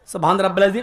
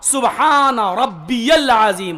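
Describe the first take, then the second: First: It is said fast and rushed. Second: It is said slowly, each word clear.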